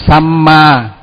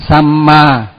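Both takes have the same delivery.

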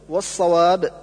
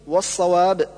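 No difference in how they are said.

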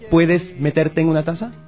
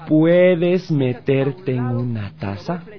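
First: The question is said quickly. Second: The question is said slowly. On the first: "Ahora lo voy a decir más rápido" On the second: "Lo voy a decir más despacito"

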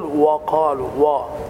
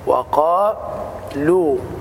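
First: The w sound is heavy and emphatic. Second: The w sound is light and thin. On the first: The speaker calls it wrong. "فالخطأ أن تقول وقالوا" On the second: The speaker calls it right. "والصواب وقالوا"

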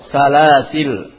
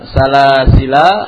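First: The word ends on the 'l' consonant. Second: The word ends with a final 'a' vowel. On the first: The alif is dropped when stopping. "ada dua bacaan" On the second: The alif is kept when stopping. "ada dua bacaan"

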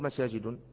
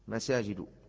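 First: The word ends with an added -n sound. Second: The word ends without an added -n sound. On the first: The speaker calls it wrong. "لا تقل مساجد، لا يوجد هذا في القرآن" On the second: The speaker calls it right. "ممنوعة من الصرف"

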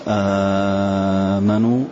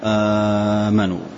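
First: The opening long vowel is held very long. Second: The opening long vowel is held short. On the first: "مد" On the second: "والقصر"

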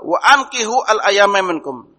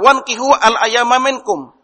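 First: The verb begins with a clear 'a' sound. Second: The verb merges into 'wan', without the 'a'. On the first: Marry off the unmarried among you. The speaker calls it right. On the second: Marry the unmarried ones yourselves. The speaker calls it wrong.

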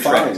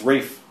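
First: The name is said with an L sound. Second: The name rhymes with safe, no L sound. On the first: The speaker calls it wrong. "There's still a ton of people who say" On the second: The speaker calls it right. "It's Rafe"

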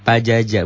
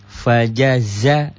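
First: The middle consonant is sounded as j. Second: The middle consonant is sounded as z. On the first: The speaker calls it wrong. "Pajaja bukan ya" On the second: The speaker calls it right. "Yang kedua zai"

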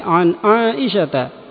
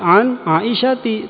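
First: The name ends with an 'a' vowel. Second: The name ends with an 'i' vowel. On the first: The speaker calls it right. "tapi an Aisyata" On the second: The speaker calls it wrong. "bukan an Aisyati"

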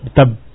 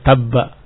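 First: The word ends on a bare consonant. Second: The word ends with a short a vowel. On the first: "Karena waqaf. Jadi sukun" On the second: "Harusnya tabba"

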